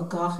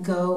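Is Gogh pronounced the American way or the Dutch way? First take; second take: Dutch; American. First: The name is said with a Dutch pronunciation. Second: The name is said with an American pronunciation. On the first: The speaker calls it right. "as they say in Amsterdam" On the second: The speaker calls it wrong. "that's sort of the American pronunciation"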